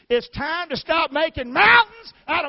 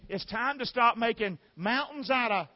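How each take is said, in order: First: It is said in a Southern American accent. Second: It is said in a plain, neutral accent.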